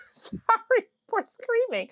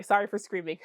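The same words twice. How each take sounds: First: Very high, slow, drawn-out squeak; high squealed apology. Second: Said in the usual way. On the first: Real, not acted. Vlogger apologizing to viewers for screaming, high squeal. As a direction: squeal it out slowly, overexcited.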